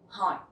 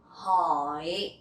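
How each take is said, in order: First: The word is said quickly and clipped short. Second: The word is said slowly and drawn out.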